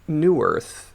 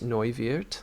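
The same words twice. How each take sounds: First: The name is pronounced the English way. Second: The name is pronounced the German way. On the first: "your natural inclination would have been what in English?" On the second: "Excellent pronunciation"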